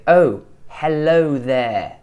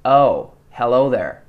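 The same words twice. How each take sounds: First: Slow British accent, "oh" from the front of the mouth. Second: Slow American accent, "oh" from further back. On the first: Coach showing how we say it, front-placed British oh. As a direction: draw out a very British "Oh, hello". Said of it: "Whereas we say". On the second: Coach showing the American way, back-placed American oh. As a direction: draw out an American "Oh, hello". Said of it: "the American oh kind of comes from further back". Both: Shown as a demonstration.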